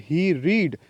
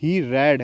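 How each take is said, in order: First: He read with read said as reed, long ee; wrong reading. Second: He read with read said as red, short e; corrected past tense. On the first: Teacher slips, reading read as reed. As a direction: read said like reed, the present tense. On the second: Teacher corrects herself, read said like red. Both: Shown as a demonstration. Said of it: "he read नहीं है ये".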